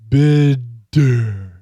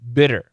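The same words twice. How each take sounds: First: The middle consonant is a slow, full D. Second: The middle consonant is a quick, light flap. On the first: The speaker calls it wrong. "not just a regular D, ... Not that" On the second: The speaker calls it right. "It's got to be fast"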